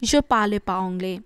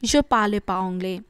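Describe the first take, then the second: First: It is shortened, with 'ne' dropped. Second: The same.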